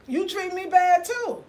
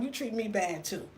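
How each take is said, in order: First: "You treat me bad too" higher and slower; "You treat me bad too" as a raised, drawn-out declaration; emphatic repeat. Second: Said in the usual way. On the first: Real, not acted. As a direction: drive home "You treat me bad too", pitched up and stretched.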